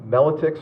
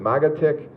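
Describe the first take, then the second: First: The second syllable begins with an l sound. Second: The second syllable begins with a g sound. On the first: "his name is last name is pronounced uh" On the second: "Some people pronounce it"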